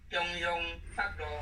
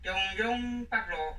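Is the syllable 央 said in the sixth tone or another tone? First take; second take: sixth tone; another tone. First: The syllable 央 is in the sixth tone. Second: The syllable 央 is not in the sixth tone. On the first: The speaker calls it right. "这个央字哈、哦，要读第六调" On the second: The speaker calls it wrong. "这是错误的"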